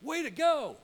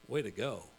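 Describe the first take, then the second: First: High, loud cheer; enthusiastic praise. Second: Low, deadpan sarcasm; sarcastic praise. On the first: Speaker showing how praise should sound, enthusiastic, high and loud. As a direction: shout it like real congratulations. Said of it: "here's the same words". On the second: Speaker showing how the same words can hurt, sarcastic and low. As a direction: drop the pitch and drain the praise out of it. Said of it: "Whole different meaning". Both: Shown as a demonstration.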